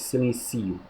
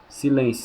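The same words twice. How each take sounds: First: Silencio softer, stressed on ci; unaccented silencio, softer. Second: Silêncio stressed on lên; accented silêncio. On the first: Teacher giving the verb form: silencio, softer, on ci. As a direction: say silencio with the stress moved onto ci. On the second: Teacher setting the noun against the verb: Silêncio on lên. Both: Shown as a demonstration.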